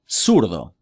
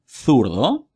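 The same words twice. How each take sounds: First: The z is said like English s. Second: The z is said like English th. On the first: This is how it is said outside Spain. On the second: This is how it is said in Spain.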